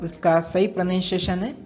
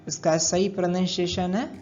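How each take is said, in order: The two takes are said the same way.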